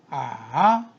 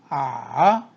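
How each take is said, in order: The two takes are said the same way.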